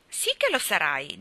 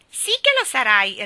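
First: Obstinate, level insistence; stubborn. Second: Loud, high teasing repeat; mocking echo. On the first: Ivy insists to Gerald, stubbornly. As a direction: dig your heels in without raising pitch. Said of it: "disse Ivy ostinatamente". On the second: Geraldine repeats Ivy's words, mocking. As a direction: parrot the stubborn girl, higher and louder. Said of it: "ripeté Geraldine". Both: A narrator's reading.

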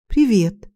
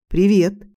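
First: Stunned, caught off guard hello; dazed. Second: Put-on hiccuping drunk greeting; a smiling hello broken by a hiccup. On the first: Acted. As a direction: greet him in shocked disbelief. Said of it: "ошалело проговорила я". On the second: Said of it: "улыбаясь и икая".

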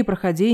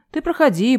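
First: Said in the usual way. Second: «проходи» raised high with a rising, inviting tune; sarcastic «Ты проходи», lifting «проходи» up; mock welcome. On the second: A narrator's reading. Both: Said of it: "не стесняйся".

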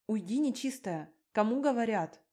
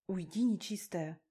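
First: Repeated louder, rising on the second line; louder shooing. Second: Said in the usual way. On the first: Acted. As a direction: shoo him off for real this time, louder.

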